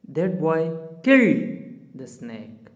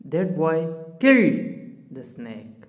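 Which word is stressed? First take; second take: killed; killed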